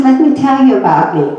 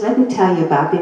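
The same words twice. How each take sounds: First: Higher and louder, pushing straight into his own story; eager self-introduction. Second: Rattled off fast and offhand; quick aside. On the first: Doctor cutting past the patient's news, eager and loud. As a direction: barrel on, not hearing a word. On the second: Patient retelling how the doctor talked only about himself, fast offhand. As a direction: toss the line away quickly. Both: Retold or imitated. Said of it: "He never heard, never asked me a question".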